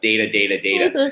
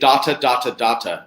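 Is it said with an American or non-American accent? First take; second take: American; non-American. First: It is said with an American pronunciation. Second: It is said in the speaker's usual non-American accent.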